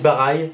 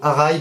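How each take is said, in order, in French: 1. Le mot commence par un son b. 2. Le mot commence par un son h. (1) "Barai, c'est le balayage" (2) "normalement, c'est Arai"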